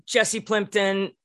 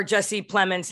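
First: Plimpton said with a P-L-I-M-P; wrong name. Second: Plemons said as PLEM-uns; corrected name. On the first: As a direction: slip into "Plimpton" before correcting. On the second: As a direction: fix it to "Plemons", carefully. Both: Real, not acted. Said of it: "not Plimpton".

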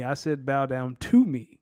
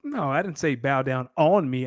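First: "to" hit firmly and drawn out; stress on to. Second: Said in the usual way. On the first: Shown as a demonstration. Correcting a misheard boast, stressing the word to. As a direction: lean on "to", not "on".

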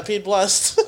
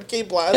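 First: Pete Blest with the L and an e. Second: Pete Blast with a clear L sound. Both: Shown as a demonstration. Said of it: "I heard the L for sure".

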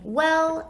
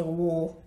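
First: Said in the usual way. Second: "wool" with a rounded oo vowel; "wool" rounded like a Southerner; Southern "wool" for well. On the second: Shown as a demonstration. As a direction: say "wool" the way my family does for well. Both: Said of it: "I say "wool".

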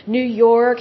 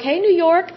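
First: Said in the usual way. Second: Bright, higher hey to the listeners; cheery shout-out greeting. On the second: Real, not acted. Host greeting New York listeners, cheerful and higher. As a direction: call out hello to a state.

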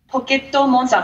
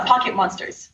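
First: "Pocket Monster" as higher-pitched Japanese poketto monsutā; Japanese pronunciation. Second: Said in the usual way. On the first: Shown as a demonstration. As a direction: give "Pocket Monster" Japanese syllables, ending on an open ah. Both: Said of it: "what Pokemon means in Japanese".

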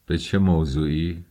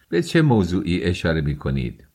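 First: Subdued, mildly troubled echo of به چه موضوعی; perplexed. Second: Insistent exclaimed question on به چه موضوعی; crying out. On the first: Svidrigailov echoes the question, perplexed. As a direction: repeat به چه موضوعی as if at a loss. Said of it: "با قیافهٔ پریشان گفت". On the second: Raskolnikov demands what is meant, crying out. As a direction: press به چه موضوعی as an urgent demand. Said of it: "راسکولنیکوف فریاد زد". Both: A narrator's reading.

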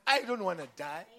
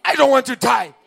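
First: Said in the usual way. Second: Much higher and louder, a full cry; preacher roaring the refrain to the crowd; shouted refrain. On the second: Real, not acted. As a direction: hurl the line at the congregation. Repeated refrain, now shouted.

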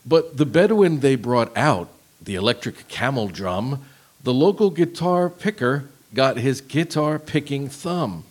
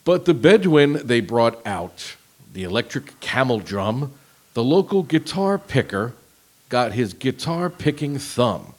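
First: Slow monotone lyric reading; deadpan robot read; robotic voice. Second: Slow flat robotic reading. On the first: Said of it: "Read it again". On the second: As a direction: read lyrics like a robot. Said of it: "read it in kind of a robotic voice". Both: Shown as a demonstration.

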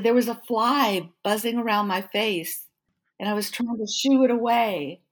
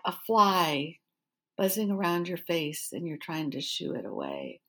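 First: Higher, emphatic retold explaining; imitating someone earnestly explaining himself; acted-out explanation. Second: Retold incredulous repeat, dropping away at the end; deadpan disbelief. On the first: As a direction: plead innocence with a raised pitch. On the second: Echoes his excuse in disbelief.

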